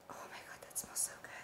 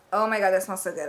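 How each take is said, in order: First: Barely audible whisper of pleasure; hushed, unvoiced rapture; awed whisper. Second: Said in the usual way. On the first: Real, not acted. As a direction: whisper it, savouring the smell. Overcome by smell, then repeats aloud.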